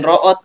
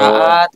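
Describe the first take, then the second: First: The word is said with an 'o' vowel. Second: The word is said with an 'a' vowel. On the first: This is the local dialect form. "lain root euy gitu" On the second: This is the standard language form. "raat gitu"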